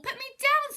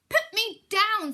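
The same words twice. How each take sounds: First: High, loud plea; squealing fish. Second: High, loud, slow squeal; shrieking fish. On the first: Fish begging the cat a second time, high squeal. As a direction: cry it out again, higher still. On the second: Fish held aloft begging the cat, loud high squeal. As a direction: squeal it out, dangling in the air. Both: Acted.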